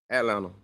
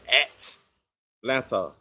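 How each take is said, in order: First: It is said naturally with the T silent. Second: It is said slowly with the T pronounced. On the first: The speaker calls it right. "Nah, it's Atlanta. ... The T silent" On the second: The speaker calls it wrong. "I got to slow down and say that"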